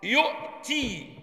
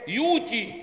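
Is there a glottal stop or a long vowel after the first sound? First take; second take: glottal stop; long vowel. First: A glottal stop follows the first syllable. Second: A long oo vowel replaces the glottal stop. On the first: "الهمزه ساكنه" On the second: "يبقى نقول ايه؟"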